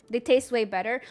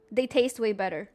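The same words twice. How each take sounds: The two takes are said the same way.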